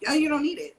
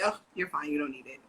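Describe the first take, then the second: First: Put-on high, loud childish echo of mom; a hint of a sassy little girl; daughter mimicking. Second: Dismissive mom. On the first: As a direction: throw the line back at her cheekily. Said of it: "her response to me was". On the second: Retold or imitated. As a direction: wave it away without thinking. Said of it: "I would say".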